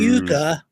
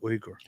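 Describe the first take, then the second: First: The name starts with 'yoo' and ends 'gah'. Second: The name starts with 'wee' and ends 'gur'. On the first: The speaker calls it wrong. "some people mistakenly say Yuga, but that's not how it is" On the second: The speaker calls it right. "It's actually Uyghur"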